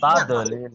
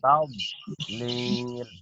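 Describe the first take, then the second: First: The middle consonant is released with a bounce. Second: The middle consonant is held without a bounce. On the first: The speaker calls it wrong. "maka tidak boleh ada uh, tekanan. Tadlil, bukan, tidak boleh" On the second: The speaker calls it right. "tapi tab harus ditahan"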